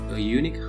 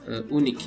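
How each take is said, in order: First: Unique starts with a consonant 'y' sound. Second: Unique starts with a plain 'oo' vowel sound. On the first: The speaker calls it right. "Karena bunyinya konsonan u" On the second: The speaker calls it wrong. "Bukan a unik"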